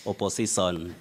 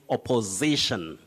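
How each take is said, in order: First: The word lacks the standard sh sound. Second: The word has the standard sh sound. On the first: The speaker calls it wrong. "The person may say opposition" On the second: The speaker calls it right. "then you tell that person to say opposition"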